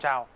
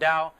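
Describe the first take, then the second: First: The last word begins with a T sound. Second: The last word begins with a D sound. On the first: This is how most people say it. The speaker calls it wrong. "not Tao, but everyone says Selim Tao" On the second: This is the original pronunciation. The speaker calls it right. "the actual correct pronunciation of it is Dao"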